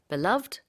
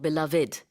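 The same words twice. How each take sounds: First: The word is said with two syllables. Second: The word is said with three syllables. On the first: "two syllables로 발음할 수도 있고" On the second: "three syllables로 발음할 수도 있어요"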